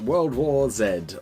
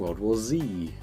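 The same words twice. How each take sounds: First: The last letter is said the British way, zed. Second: The last letter is said the American way, zee.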